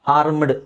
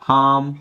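First: The r sound is clearly pronounced. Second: The r sound is left silent. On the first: The speaker calls it wrong. "ಹಾರ್ಮ್ಡ್ ಅಲ್ಲ" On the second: The speaker calls it right. "ಆರ್ silent ಮಾಡ್ಕೊಳ್ಳಿ ಇಲ್ಲಿ"

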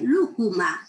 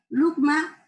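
First: The word is said with three syllables. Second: The word is said with two syllables. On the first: "también se oye lúcuma, 3 sílabas" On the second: "la pronunciación etimológica de 2 sílabas"

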